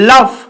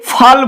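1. শব্দটি l দিয়ে শুরু এবং f দিয়ে শেষ হয়। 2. শব্দটি f দিয়ে শুরু এবং l দিয়ে শেষ হয়। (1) "লটা আগে রয়েছে" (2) "এটাকে অনেকে ফাল বলে"

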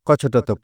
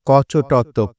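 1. এটি আরও দ্রুত গতিতে পড়া হচ্ছে। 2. এটি স্বাভাবিক, ধীরস্থির গতিতে পড়া হচ্ছে। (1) "আরেকটু দ্রুত করা যায় কিনা" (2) "আবার বলছি"

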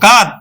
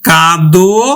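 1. শব্দটি খালি ব্যঞ্জনে শেষ হয়েছে। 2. শব্দটি ও-কার দিয়ে শেষ হয়েছে। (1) "কাদ কি উচ্চারণ করবো?" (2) "কিন্তু আমরা উচ্চারণ করবো আবার ওকার দিয়ে"

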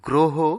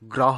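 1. এতে প্রমিত ব্যাকরণসম্মত উচ্চারণ ব্যবহার করা হয়েছে। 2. এতে সাধারণ কথ্য উচ্চারণ ব্যবহার করা হয়েছে। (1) "সঠিক উচ্চারণ" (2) "গ্রহ নয়"

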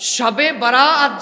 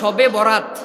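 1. দ্বিতীয় শব্দের মাঝের স্বরধ্বনিটি লম্বা, টেনে বলা। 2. দ্বিতীয় শব্দের মাঝের স্বরধ্বনিটি ছোট। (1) "শবে বরাআত যেটাকে আমরা প্রচলিত শব্দে বলে থাকি" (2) "শবে বরাত মানে হলো বিয়ের রাত"

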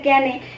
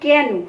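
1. শব্দটি 'e' স্বরধ্বনি দিয়ে শেষ হয়। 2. শব্দটি 'o' স্বরধ্বনি দিয়ে শেষ হয়। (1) "কেন শব্দটাকে অনেকে বলে কেনে" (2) "যেমন কেন"

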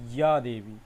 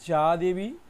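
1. প্রথম শব্দটি 'ee-ya' ধ্বনি দিয়ে শুরু হয়। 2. প্রথম শব্দটি 'j' ধ্বনি দিয়ে শুরু হয়। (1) "এর প্রকৃত উচ্চারণ হবে ইয়া দেবী" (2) "কেউ বলছে যা দেবী"

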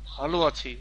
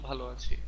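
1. এটা দাঁতে দাঁত চেপে জোর দিয়ে বলা হয়েছে। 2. এটা সাদামাটা ও শান্তভাবে বলা হয়েছে। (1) "একটু স্ট্রেস দিয়ে বলো যে ভালো আছি, মানে একটু দাঁত খিটিমিটি করে" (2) "তুমি বলছো ভালো আছি"

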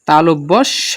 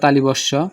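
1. l-এর পরে কোনো i ধ্বনি নেই। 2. l-এর পরে i ধ্বনি আছে। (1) "তালিবস্য না, কি হবে তালব্য স" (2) "অনেকে আমরা বলি তালিবস্য"

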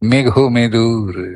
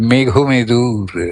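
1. এটি স্বাভাবিক, উজ্জ্বল সুরের স্বরে বলা হচ্ছে। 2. এটি স্বাভাবিক, উজ্জ্বল সুরের স্বরে বলা হচ্ছে।

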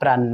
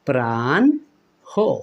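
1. n দ্বিত্ব হয় আর কোনো h শোনা যায় না। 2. শেষে n-এর পরে একটি h ধ্বনি আসে। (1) "শেষের নটা ডাবল করে দেই, হটা আর পড়ি না" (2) "এইভাবে কিন্তু সঠিক হবে"

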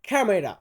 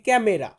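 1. প্রথম ব্যঞ্জনটি aspirated kh। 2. প্রথম ব্যঞ্জনটি আনঅ্যাসপিরেটেড k। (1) "ও বলতেছে ক্যামেরা ... আর খ" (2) "আমি বলতেছি ক্যামেরা ... এই ক"

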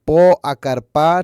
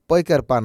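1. প্রথম দুটি শব্দ আলাদা করে বলা হয়। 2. প্রথম দুটি শব্দ একসঙ্গে বলা হয়।

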